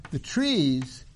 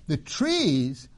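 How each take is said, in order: Both takes have the same delivery.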